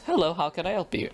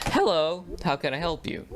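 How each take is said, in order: First: Lightly voiced office lady, higher and quicker; quick, raised receptionist hello, not drive-thru style; front office greeting. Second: Lightly voiced drive-thru worker, higher pitch; raised, sing-out customer-service hello; fast-food greeting. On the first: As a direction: answer briskly as the school front desk. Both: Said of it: "not the fast food way".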